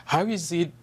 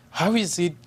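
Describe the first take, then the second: No difference in how they are said.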